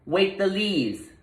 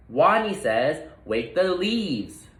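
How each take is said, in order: First: Higher, slow, confident call; a small rodent finding his voice; stronger voice. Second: Slow, emphatic repeat of the order; a little leader insisting; stronger voice. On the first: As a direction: call it out with new courage. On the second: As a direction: say it again, firm and clear. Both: Acted. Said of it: "Wadney's voice was stronger".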